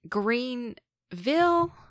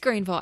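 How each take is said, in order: First: The word is stretched out and stumbled over. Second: The word is said quickly and compactly. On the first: The speaker calls it wrong. "stumbling and elongating it" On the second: The speaker calls it right. "It's Greenville"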